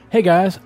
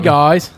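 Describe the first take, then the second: First: Spoken in the reader's ordinary accent. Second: Spoken in an attempted British accent.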